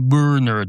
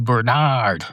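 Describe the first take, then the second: First: The stress is on the first syllable. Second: The stress is on the second syllable. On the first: The speaker calls it right. "You don't want to say" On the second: The speaker calls it wrong. "you put the inflection on the nard instead of the burr"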